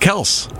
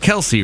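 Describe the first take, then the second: First: The name is said with one syllable. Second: The name is said with two syllables. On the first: The speaker calls it right. "It's Kels" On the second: The speaker calls it wrong. "Y'all know it's not even Travis Kel-see"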